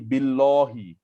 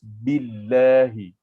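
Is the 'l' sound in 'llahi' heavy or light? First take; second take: heavy; light. First: The 'l' in 'llahi' sounds heavy and full. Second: The 'l' in 'llahi' sounds light and thin. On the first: The speaker calls it wrong. "Dia tak boleh jadi billahi" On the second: The speaker calls it right. "Dia kena nipis"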